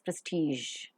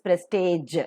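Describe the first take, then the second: First: It is said with a standard British pronunciation. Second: It is said with a typical Indian pronunciation. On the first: The speaker calls it right. "just give it a thought, it is prestige" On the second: The speaker calls it wrong. "Normally, Indian pronunciation is prestige"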